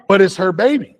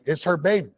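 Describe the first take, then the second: First: Put-on baby pushed higher and louder, insisting; emphatic on baby. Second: Said in the usual way. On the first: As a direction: lean hard on "baby" with a raised voice. Insisting it's her baby.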